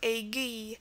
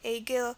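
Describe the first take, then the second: First: The word ends in a plain 'ee' vowel. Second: The word ends in an 'eel' sound with L. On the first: "can also be pronounced as E at the end" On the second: "the ill definitely is the first pronunciation"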